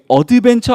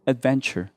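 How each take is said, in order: First: The first syllable is drawn out with an extra vowel. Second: The first syllable is said very short. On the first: The speaker calls it wrong. "우리 어드벤처 아니에요" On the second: The speaker calls it right. "adventure 앞에를 짧게"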